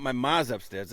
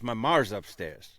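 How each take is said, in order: First: "ma's" said with a plain open vowel and no R; "my ma's" with no R sound; "ma's" without the hard R; wrong Boston ma. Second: "mar's" said slowly with a hard R after the vowel; slow "my mar's" with the R hit hard; "mar's" with the R clearly pronounced; Boston ma with hard R. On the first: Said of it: "It's not". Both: Shown as a demonstration.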